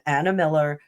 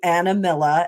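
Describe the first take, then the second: First: It is said in a neutral accent. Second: It is said in a New Jersey accent.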